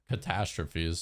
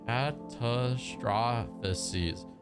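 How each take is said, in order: First: The word ends with a short 'fees' sound. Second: The word ends with an extra 'faces' sound. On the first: The speaker calls it right. "I just gotta make sure I'm pronouncing it right" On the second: The speaker calls it wrong. "I want to say faces, but it, it doesn't make sense"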